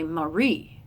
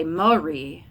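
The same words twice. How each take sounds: First: "Marie" as ma-RIE, end overemphasized; over-hit the second syllable of "Marie"; exaggerated second-syllable stress. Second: "Marie" wrongly said as MA-rie; over-hit the first syllable of "Marie"; exaggerated first-syllable stress. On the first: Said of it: "I have to overemphasize it". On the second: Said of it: "I have to over-exaggerate". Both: Shown as a demonstration.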